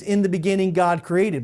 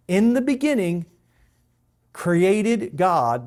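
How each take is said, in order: First: Said in the usual way. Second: "In the beginning" set out high and loud, then a long pause; emphasis on IN THE BEGINNING. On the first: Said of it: "It means". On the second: Shown as a demonstration. Teacher shows literal Hebrew word order, "In the beginning" emphasised and set apart. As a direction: announce "In the beginning" loudly, pause, then "created God". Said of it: "So that's the emphasis of verse one".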